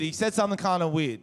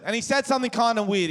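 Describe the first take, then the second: First: Said in the usual way. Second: Tossed off fast and a little higher; quick first telling. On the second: Shown as a demonstration. Comic tells crowd about his mate, first quick telling. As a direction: rush it out before the repeat.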